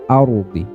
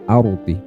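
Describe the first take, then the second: The two takes are said the same way.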